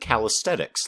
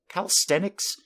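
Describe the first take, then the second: First: The word is said with a T sound. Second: The word is said with an N sound. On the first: The speaker calls it wrong. "like there's a T in it" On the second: The speaker calls it right. "I'm not sure I ever knew there was an N in that word"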